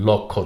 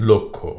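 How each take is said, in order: First: লক্ষ্য said "lawkkho", open aw; mistaken open vowel. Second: লক্ষ্য said "lokkho", rounded o; correct o-like vowel. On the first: Teacher showing the error to avoid, "lawkkho". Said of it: "লক্ষ্য না". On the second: Teacher correcting the error, "lokkho". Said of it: "শব্দটির উচ্চারণ". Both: Shown as a demonstration.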